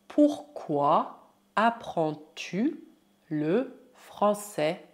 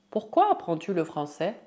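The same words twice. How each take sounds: First: Very slow, separated syllables; word by word. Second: Said in the usual way. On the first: Shown as a demonstration. Teacher models French question for learners, word by word. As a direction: let each word stand alone.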